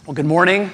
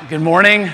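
First: Said in the usual way. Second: Louder greeting. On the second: Real, not acted. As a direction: call out good morning to the room. Repeats greeting to get response.

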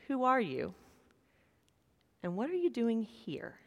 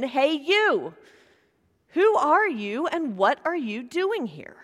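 First: Soft, hushed question to the congregation; preacher asking the congregation, quiet and sincere. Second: Mild mock yell from the guard; retold guard shouting at the lost rabbi. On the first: Real, not acted. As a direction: ask it gently and let it land. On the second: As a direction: call the challenge out again with a lighter push. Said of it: "the guard yelled at him again".

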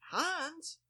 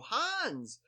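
First: Very high, questioning HANS; puzzled prompt. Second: High, falling call of HANS; called-out greeting. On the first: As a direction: say HANS as a high-pitched question to a blank face. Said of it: "the blank stare in my face". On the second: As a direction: imitate hailing someone by name, pitched up. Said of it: "And they just go". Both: Retold or imitated.

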